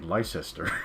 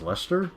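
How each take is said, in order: First: Every written syllable of the name is sounded out. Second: The name is shortened, with letters left unsaid. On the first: This is how an American would read it. The speaker calls it wrong. "an American would say Leicester" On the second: This is how the British say it. The speaker calls it right. "it's pronounced Leicester"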